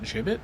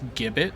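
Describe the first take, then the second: First: The word begins with a soft j sound. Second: The word begins with a hard g sound. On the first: "not a soft one" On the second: "It begins with a harsh sound"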